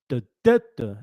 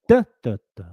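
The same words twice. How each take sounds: First: The stress is on the second syllable. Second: The stress is on the first syllable. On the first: "a number two caterpillar" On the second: "can you give me a number one caterpillar?"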